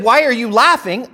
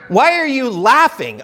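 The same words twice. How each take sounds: First: Asking to learn the reason; a straightforward, curious why; sincere question. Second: Pointed rhetorical question; mild telling-off, no answer wanted; implied reproach. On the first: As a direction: ask it wanting an answer. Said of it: "I want to know why she is laughing". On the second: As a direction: ask it as if laughing is out of place. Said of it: "I'm implying that you should not be laughing". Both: Shown as a demonstration.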